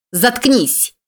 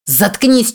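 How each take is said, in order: First: High, hate-filled scream; furious shriek at the honking driver; hateful scream. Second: High, hate-filled yell; raging at the driver behind; hateful yell. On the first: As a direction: scream it at him out of pure rage. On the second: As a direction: spit it out in fury. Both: A narrator's reading. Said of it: "с ненавистью заорала".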